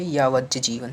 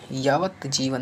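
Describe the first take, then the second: First: यावत जीवन as yavaj-jeevan; corrected form. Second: यावत जीवन with separate t, slow; wrong form. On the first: Teacher corrects students, यावत जीवन with doubled j. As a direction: turn the t of यावत into j. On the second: Teacher shows the error, slow यावत with clear t. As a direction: sound the t in यावत before जीवन. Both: Shown as a demonstration. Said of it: "नहीं होता है".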